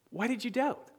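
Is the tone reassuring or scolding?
reassuring. It is said in a gentle, reassuring tone.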